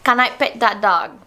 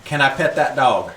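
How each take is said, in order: First: Copying a Southern accent phrase; learner's playful try at Southern English; attempted Southern accent. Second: Demonstrating a Southern English phrase; Southern accent. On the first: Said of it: "you say it and I repeat it". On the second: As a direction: model a Southern accent for someone to copy. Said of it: "say some phrases in Southern". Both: Shown as a demonstration.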